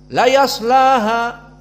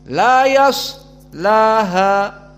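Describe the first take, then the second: First: The s sound is cut short quickly. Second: The s sound is held slightly long. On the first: The speaker calls it wrong. "membaca sod sakinah dengan cepat" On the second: The speaker calls it right.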